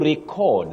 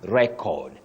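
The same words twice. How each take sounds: First: The stress is on the second syllable. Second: The stress is on the first syllable. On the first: It is used as a verb. "that is the verb" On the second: It is used as a noun. "The noun"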